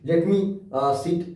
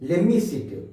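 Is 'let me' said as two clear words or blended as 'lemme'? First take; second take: clear; blended. First: 'Let me' is said as two clear words. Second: 'Let me' is blended into a quick 'lemme'. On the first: "जैसे लेट मी sit" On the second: "जगह क्या बोलते हैं?"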